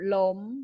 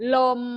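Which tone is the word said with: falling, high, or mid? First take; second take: high; mid. First: The word is said with a high tone. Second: The word is said with a mid level tone. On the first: "เสียงตรีจะมีวรรณยุกต์โท" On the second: "เสียงแรกเลยเสียงสามัญ"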